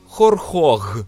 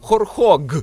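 First: The consonant after р is a breathy h. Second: The consonant after р is a hard g. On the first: The speaker calls it wrong. "мене страшенно бісить, коли беруть і кажуть хорхог" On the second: The speaker calls it right. "Ну там нема г"

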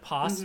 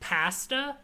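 First: The word is said with an American pronunciation. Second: The word is said with a British pronunciation. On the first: This is the usual local way of saying it. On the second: This is how the British character says it.

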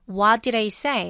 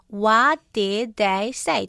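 First: The words run together smoothly in one go. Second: Each word is said separately, cut apart.

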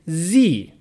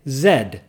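First: The letter is said the American way, 'zee'. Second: The letter is said the British way, 'zed'.

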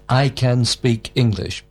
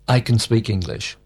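First: It is said slowly and carefully. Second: It is said quickly and reduced.

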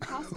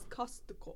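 First: The word is said with an American accent. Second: The word is said with a Japanese accent. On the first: This is the form the listeners in Japan did not understand. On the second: This is the form people in Japan understand.

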